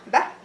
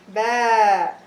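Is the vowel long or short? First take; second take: short; long. First: The vowel is held only briefly. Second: The vowel is held for two counts. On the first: "If I want to do short vowel fatha" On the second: "long vowel alif with fatha, ... It takes two seconds"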